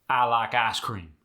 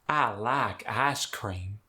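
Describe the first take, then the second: First: It is said with a Midwestern accent. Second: It is said with a Southern accent.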